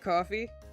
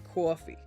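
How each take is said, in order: First: It is said in a plain general American accent. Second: It is said in a strong New York accent. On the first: This is how the speaker normally talks. "I say coffee" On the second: This is how the speaker does not normally talk. "I don't say coffee"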